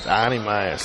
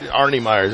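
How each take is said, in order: First: It is said in a Boston accent. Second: It is said in the speaker's plain accent.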